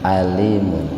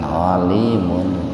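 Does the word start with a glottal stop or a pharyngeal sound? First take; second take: glottal stop; pharyngeal. First: It starts with a light glottal stop. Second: It starts with a deep throat pharyngeal sound. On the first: The speaker calls it right. "pakai hamzah" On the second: The speaker calls it wrong. "jangan alimun"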